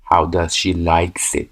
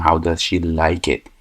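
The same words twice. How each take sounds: First: 1 slow wrong version. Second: Said in the usual way. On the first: Shown as a demonstration. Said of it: "اینجا نباید بگیم". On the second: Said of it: "باید بگیم".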